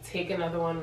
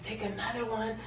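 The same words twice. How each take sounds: First: Said in the usual way. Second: Higher, softer disbelieving repeat; quiet, pitched-up mock astonishment; incredulous echo. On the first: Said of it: "My boyfriend was very nonchalant". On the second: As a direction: hand the words back in disbelief. Incredulous echo of boyfriend's advice.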